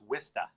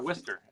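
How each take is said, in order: First: It is said in a thick Boston accent. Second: It is said in a general American accent. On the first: "if you want to say it like we like the like the locals say it, it's" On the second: "you are, yeah"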